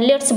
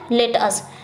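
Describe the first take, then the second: First: The words are run together, dropping a sound. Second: Both words are said fully and separately. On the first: "तो हम क्या कहते हैं? लेट्स बोल देते हैं" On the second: "लेट अस ऐसे है ना"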